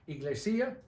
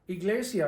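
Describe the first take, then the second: First: The stress is on the third syllable. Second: The stress is on the second syllable. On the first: The speaker calls it wrong. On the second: The speaker calls it right.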